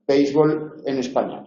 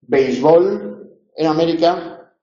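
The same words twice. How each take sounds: First: Béisbol stressed on the first syllable, BÉIS; béisbol, acento en la primera; Spanish stress. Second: Béisbol stressed on the last syllable, bol; béisbol, acento en la última; American stress. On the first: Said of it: "En España hay que ponerle tilde". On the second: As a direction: say béisbol as beisBOL. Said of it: "En América no se le pone tilde". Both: Shown as a demonstration.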